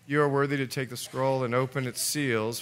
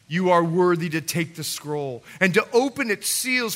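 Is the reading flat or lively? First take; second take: flat; lively. First: The reading is flat, with little energy. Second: The reading is lively, with strong energy. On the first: The song feels old and worn out. The speaker calls it wrong. "can you imagine if I read it like this?" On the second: The song feels new and revived. The speaker calls it right. "A new song is this"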